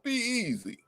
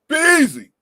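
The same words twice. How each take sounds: First: It is said in a pleased, affectionate tone. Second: It is said in a stern, warning tone. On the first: It expresses delight and appreciation. "she see you got bought her some flowers" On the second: It is a warning that someone is in trouble. "she see your clothes all over the floor"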